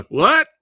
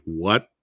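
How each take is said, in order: First: Loud, very high rising yelp; exaggerated disbelief. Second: Mildly puzzled rising question; retold disbelief. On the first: Learning bad movies got released in four K, loud incredulous yelp. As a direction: blow up the disbelief into a high shout. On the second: Learning bad movies got released in four K, mild disbelief. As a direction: react with restrained disbelief, rising at the end.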